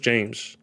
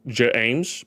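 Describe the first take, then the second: First: The name is said as one syllable. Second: The name is stretched into two syllables. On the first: The speaker calls it right. "it's just James" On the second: The speaker calls it wrong. "It sounds like it should be two syllables"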